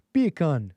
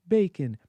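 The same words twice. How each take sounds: First: Bacon said the Jamaican way, like "bee-kun"; a quick Jamaican-accented bacon; testing a Jamaican accent on the word bacon; Jamaican accent try. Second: Said in the usual way. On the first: Shown as a demonstration. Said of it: "How would a Jamaican say that?". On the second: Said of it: "let me think, let me think".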